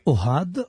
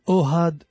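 First: The stress is on the last syllable. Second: The stress is on the first syllable. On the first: The speaker calls it wrong. "השם שלו זה לא אוהד" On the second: The speaker calls it right. "זה אוהד מלעיל"

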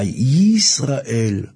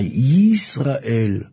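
First: The opening y sound is heavily exaggerated. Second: The opening y sound is heavily exaggerated.

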